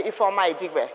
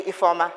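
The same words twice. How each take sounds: First: Introducing herself by full name, said carefully in full; full name said properly. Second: Ifeoma, repeated back too familiarly, a bit louder; overfamiliar first name. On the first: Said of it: "or if I say". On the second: Mocking a stranger who is too forward, repeating Ifeoma. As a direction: mimic a stranger who answers her surname with just Ifeoma. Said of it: "you say". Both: Shown as a demonstration.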